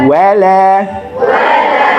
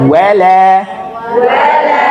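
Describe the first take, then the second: Both takes have the same delivery.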